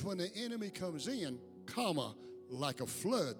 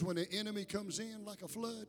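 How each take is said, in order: First: There is a break before "like a flood." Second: It runs on without a break before "like."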